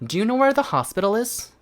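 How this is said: It is said in an American accent. "일단 미국식 같은 경우에는"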